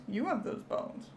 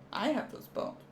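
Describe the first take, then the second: First: Hushed. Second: "I have those bones" whispered, with no voice at all. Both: Acted. Marvelling at an X-ray.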